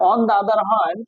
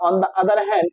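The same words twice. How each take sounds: First: On the other hand, each word drawn out slowly; slow dictation. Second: On the other hand, thrown up high in the voice; high repeat. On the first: Teacher dictating to students, slow and deliberate. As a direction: spell it out slowly for the class to write. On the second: Teacher repeating the phrase to students, pitched high. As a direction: lift it high, as if calling it back to the class. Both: Shown as a demonstration.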